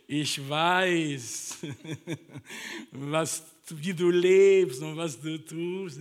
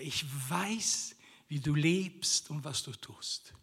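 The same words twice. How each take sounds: First: It is said with a put-on Italian-style accent. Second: It is said in a plain German accent. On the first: It sounds like a casual, mocking greeting. The speaker calls it wrong. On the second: It is read as a serious statement. The speaker calls it right.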